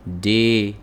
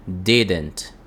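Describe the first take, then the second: First: DIDN'T broken slowly into "di... dent"; syllable-by-syllable pronunciation. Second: "Didn't" as one joined word, sounding like "dident"; vowel in second syllable. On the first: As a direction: say "Didn't" in two separate, drawn-out syllables, di, then dent. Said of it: "A pronúncia vai ser mais ou menos assim". ("Didn't" pronunciado devagar, separado em di... dent) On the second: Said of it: "É como se tivesse uma vogal aqui". ("Didn't" pronunciado junto, como "dident", com vogal) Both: Shown as a demonstration.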